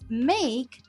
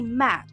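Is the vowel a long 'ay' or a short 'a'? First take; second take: long ay; short a. First: The vowel is a long 'ay' sound. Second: The vowel is a short 'a' sound. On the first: The speaker calls it right. "reading this word as make" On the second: The speaker calls it wrong. "they say mac"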